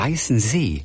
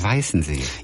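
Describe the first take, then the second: First: The stress is on the last syllable. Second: The stress is on the first syllable. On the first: "Aber warum wird das wohl hinten betont?" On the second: "ich sage immer Weißensee"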